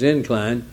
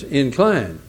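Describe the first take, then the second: First: The stress is on the first syllable. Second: The stress is on the second syllable. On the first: It names a slope. "when it's a noun" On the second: It means to lean toward something. "When it's a verb"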